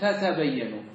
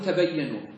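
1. تبدأ الكلمة بصوتي تاء. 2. تبدأ الكلمة بصوت تاء واحد. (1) "وتبقي التاءين تقول تتبينوا" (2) "تحذف إحدى التاءين تقول تبينوا"

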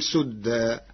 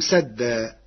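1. أول حركة في الكلمة هي 'u'. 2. أول حركة في الكلمة هي 'a'.

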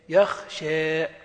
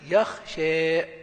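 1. تنتهي الكلمة بحركة بين الألف والياء. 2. تنتهي الكلمة بحركة بين الألف والياء.

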